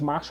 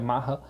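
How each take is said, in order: First: The name is said as Masha. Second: The name is said as Maha.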